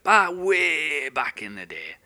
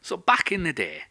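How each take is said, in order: First: Slow, drawn out. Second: Said in the usual way. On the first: Shown as a demonstration. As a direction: back and way stretched out slowly.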